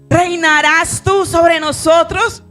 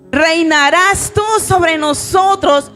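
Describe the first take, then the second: First: It is read in a plain, neutral tone. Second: It is read in a nasty, scornful tone.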